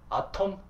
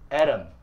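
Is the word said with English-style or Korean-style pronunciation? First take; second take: Korean-style; English-style. First: The word is said with Korean-style pronunciation. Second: The word is said with English-style pronunciation. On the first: The speaker calls it wrong. "웬 말이야" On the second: The speaker calls it right. "이상하지? 이게 맞아요"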